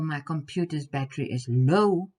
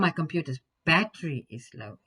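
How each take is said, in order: First: The word low is stressed. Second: The word battery is stressed. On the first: The battery is low rather than high. "instead of it being high" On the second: The battery, not the screen, is the problem. "instead of the screen having something wrong with it"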